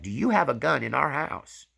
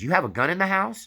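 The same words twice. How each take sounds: First: Retold upset demand, higher and louder; wife demanding an answer from her husband. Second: Retold shocked wife's question, much higher and louder; wife's startled cry at hearing of the gun; alarmed wife. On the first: Wife elbows her husband, upset demand. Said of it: "She was upset". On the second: Wife learns of the hidden shotgun, shocked high cry. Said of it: "His wife was standing there and she says".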